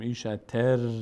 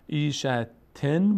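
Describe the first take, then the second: First: The n is replaced by an r sound. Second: The word ends with a clear n sound. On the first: The n merges into the following r. "ما به جای نون ساکن الان ر تلفظ میکنیم" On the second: This is the underlying form before assimilation. "ایشتن بوده"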